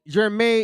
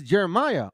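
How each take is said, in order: First: Jeremiah as jer-may-YAH-hoo; higher Jeremiah ending in yah-hoo; Hebrew-style pronunciation. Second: Jeremiah as jer-uh-MY-uh; common English pronunciation. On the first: Preacher gives the original name, Jeremiah as jer-may-yah-hoo. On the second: Preacher gives the English equivalent, Jeremiah as jer-uh-my-uh. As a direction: Jeremiah with the ordinary my-uh ending. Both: Shown as a demonstration. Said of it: "is Jeremiah".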